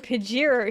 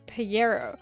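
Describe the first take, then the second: First: It is said with a local Australian pronunciation. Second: It is said with a Spanish-style pronunciation. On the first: This is how people say it locally. "it's called a Pajero here" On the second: This is how someone else insists it is said. "James insists it's Pajero"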